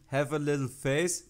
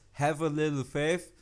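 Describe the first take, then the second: First: The last word ends with an 's' sound. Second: The last word ends with a 'th' sound. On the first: The speaker calls it wrong. "you're saying have a little face" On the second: The speaker calls it right. "It's have a little faith"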